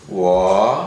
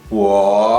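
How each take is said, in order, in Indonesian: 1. Nadanya turun rendah seperti helaan napas. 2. Nadanya turun rendah seperti helaan napas.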